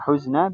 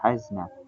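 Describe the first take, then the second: First: The first vowel is an 'u' sound. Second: The first vowel is an 'a' sound. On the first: "bisa dibaca huzna" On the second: "bisa dibaca hazna"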